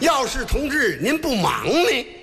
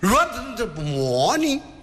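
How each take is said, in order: First: The sentence is said slowly and clearly. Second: The sentence is said fast and slurred.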